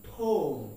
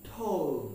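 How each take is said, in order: The two takes are said the same way.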